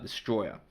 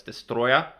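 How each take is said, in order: First: DESTROYER as the everyday English word, falling and softer; ordinary-word DESTROYER. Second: DESTROYER as "des-TROY-ah", rising at the end; correct monster-name DESTROYER. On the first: Vlogger rejects the common reading, DESTROYER said as an ordinary word. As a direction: drop DESTROYER quietly as the rejected pronunciation. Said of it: "but it's Destroyer". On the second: Vlogger corrects the monster's name, DESTROYER pronounced as a name. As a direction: say DESTROYER like a name, lifting the last syllable. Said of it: "not Destroyer". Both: Shown as a demonstration.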